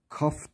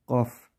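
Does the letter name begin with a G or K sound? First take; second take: K; G. First: The name begins with a hard K sound. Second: The name begins with a G sound. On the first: The speaker calls it wrong. "Kaf demeyelim buna" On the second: The speaker calls it right. "G harfiyle. K harfiyle değil"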